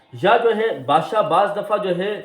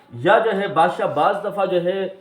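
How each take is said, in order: No difference in how they are said.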